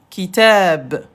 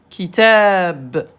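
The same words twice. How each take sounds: No difference in how they are said.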